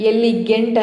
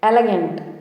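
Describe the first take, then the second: First: The second vowel sounds like a clear 'ee'. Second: The second vowel is a short, weak 'uh'. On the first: The speaker calls it wrong. "ఎలిగెంట్ అని పలకద్దు, wrong pronunciation" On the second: The speaker calls it right. "ఎలగెంట్ ఎలగెంట్ అని పలకాలి"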